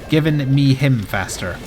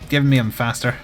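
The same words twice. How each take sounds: First: Each word is pronounced clearly and separately. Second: The words blur and meld into each other. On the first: The speaker calls it right. "the correct diction with which to say that sentence" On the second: The speaker calls it wrong. "it was a run-on sentence with my accent"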